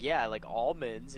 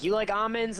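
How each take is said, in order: First: Said in the usual way. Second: Almonds said "AH-monds", high pitch; silent-L almonds. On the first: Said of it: "the dude's like". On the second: Retold or imitated. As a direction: ask with almonds as "ahmonds". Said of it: "keeps calling the almonds almonds".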